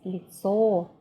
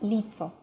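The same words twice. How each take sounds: First: The stress is on the second syllable. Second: The stress is on the first syllable. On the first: The speaker calls it right. "It's лицо. O is stressed" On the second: The speaker calls it wrong. "it's not лицо"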